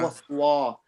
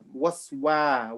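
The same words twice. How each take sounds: First: It is said heavy, with a full mouth. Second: It is said light, with an empty mouth. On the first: The speaker calls it wrong. "not waswa" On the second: The speaker calls it right. "try to make your mouth as empty as you can"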